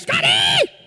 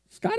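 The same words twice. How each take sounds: First: The name is called much louder. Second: The name is called at normal volume.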